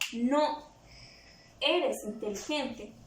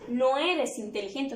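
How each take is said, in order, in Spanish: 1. Hay una pausa justo después de 'no'. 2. No hay pausa después de 'no'. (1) "Si yo coloco aquí una coma" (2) "quito eso"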